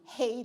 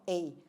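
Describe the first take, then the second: First: The word begins with an h sound. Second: The word begins with no h sound. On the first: The speaker calls it right. "it should be hey" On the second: The speaker calls it wrong. "not a"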